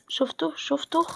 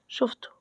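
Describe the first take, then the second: First: Urgent whispered warning; whispering شفته twice, tense and hushed. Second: Said in the usual way. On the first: Real, not acted. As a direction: hiss شفته، شفته under the breath so the enemy can't hear. Spotted an enemy in game.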